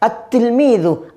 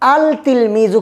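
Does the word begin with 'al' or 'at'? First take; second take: at; al. First: The L is dropped and the t is doubled. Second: The L is pronounced before the t sound. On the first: The speaker calls it right. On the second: The speaker calls it wrong.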